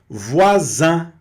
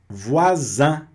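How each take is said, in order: The two takes are said the same way.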